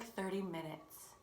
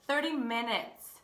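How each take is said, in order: First: "thirty minutes" slow and softer; understated reveal. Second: "Thirty minutes" slow and fuller in volume; emphatic repeat. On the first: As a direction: let "thirty minutes" drop quietly and slowly. First reveal of the mistake. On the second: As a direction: hammer home "Thirty minutes", drawn out. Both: Shown as a demonstration.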